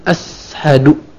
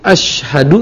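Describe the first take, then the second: First: The middle consonant is a th sound. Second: The middle consonant is a hissing s-like sound. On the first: The word has no meaning. The speaker calls it wrong. "Huruf sin besar diganti dengan huruf tha" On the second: It means I bear witness. The speaker calls it right. "ashadu yang artinya aku bersaksi"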